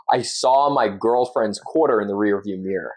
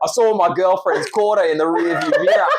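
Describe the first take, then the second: First: Australian attempting an American accent; careful imitation of an American accent; copying American accent. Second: High, lively Australian accent; Australian demo with a laugh in it. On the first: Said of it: "and then I'll try and copy you". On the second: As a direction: say it in broad Australian, pitched up. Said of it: "now do it in Australian". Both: Shown as a demonstration.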